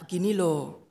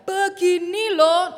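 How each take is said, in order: First: The voice is fairly low and calm. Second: The voice is at its highest and loudest. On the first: Advice is given patiently. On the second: The speaker has become angry.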